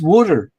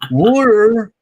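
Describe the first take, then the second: First: The word is said in a New Jersey accent. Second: The word is said in a Pennsylvania accent. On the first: "You're Jersey, all right? But it's water" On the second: "That's Pennsylvania talk there"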